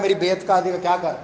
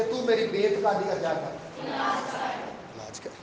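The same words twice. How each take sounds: First: Said in the usual way. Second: Soft, slow, hushed plea; pleading. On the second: Acted. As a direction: beg quietly for help. Father's plea, quoted by preacher. (دھیمی آہستہ التجا)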